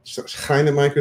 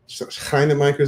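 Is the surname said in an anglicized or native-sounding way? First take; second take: native-sounding; native-sounding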